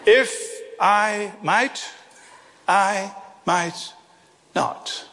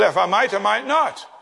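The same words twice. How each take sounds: First: Slow and deliberate. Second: Said in the usual way. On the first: Shown as a demonstration. Preacher drives the boy's lesson home, slow and deliberate. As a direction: space out "If... I might... I might... not".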